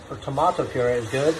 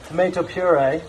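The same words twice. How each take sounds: First: "tomato" said the British way, tuh-MAH-toh; lightly British "tomato puree", tuh-MAH-toh. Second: "Tomato" said the American way, tuh-MAY-toh; plain American "Tomato puree", tuh-MAY-toh. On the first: Cook offering the other way, British "tomato" as tuh-MAH-toh. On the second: Cook offering both ways of saying it, American "Tomato" as tuh-MAY-toh first. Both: Shown as a demonstration.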